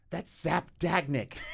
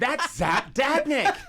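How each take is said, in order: First: Raised, drawn-out announcement of a name; slow, louder and higher, relishing the name; excited quoting. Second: Much higher and louder, stretched out; hammered-up, incredulous yell of the name; insistent mock shout. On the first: Retold or imitated. David naming someone to a baffled friend, excited quoting. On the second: David repeating himself to a baffled friend, insistent mock shout.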